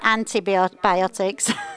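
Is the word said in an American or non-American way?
non-American. It is said in the speaker's non-American way.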